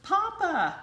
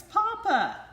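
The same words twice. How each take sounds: First: High, loud happy call; joyful cry. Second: Very high, loud delighted shout; even bigger joyful cry. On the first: Ducklings joyfully calling the rabbit papa, loud and high. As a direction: cry out with delight. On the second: Ducklings shouting papa again, very high and loud. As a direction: shout it as loud as you can. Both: A narrator's reading. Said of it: "cried the ducklings".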